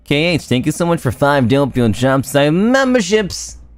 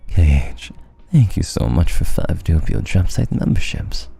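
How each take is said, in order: First: It is said in the speaker's normal voice. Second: It is said in a very low, deep voice.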